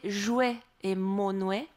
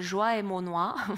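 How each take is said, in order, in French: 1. Les deux mots se terminent par un son 'way'. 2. Les deux mots se terminent par un son 'wah'. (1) "selon toute probabilité, on prononçait jouet et monouet" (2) "ce qui est, selon toute vraisemblance, totalement faux"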